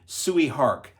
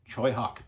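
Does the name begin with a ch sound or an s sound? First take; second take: s sound; ch sound. First: The name begins with a plain s sound. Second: The name begins with a ch sound. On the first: The speaker calls it wrong. "I called him Sui Hark. That's wrong" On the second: The speaker calls it right.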